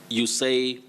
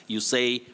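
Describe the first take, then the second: The two takes are said the same way.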